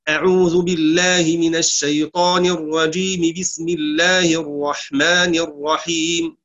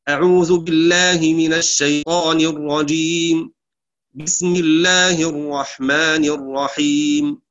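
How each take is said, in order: First: The two phrases run together without a pause. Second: There is a pause between the two phrases. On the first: "وصل الاستعاذة بالبسملة" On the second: "قطع الجميع، وهو الوقف على الاستعاذة، ثم الوقف على البسملة"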